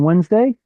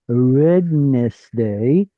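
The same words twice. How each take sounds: First: Said quickly, with the middle d silent. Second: Said slowly, with every letter including d sounded.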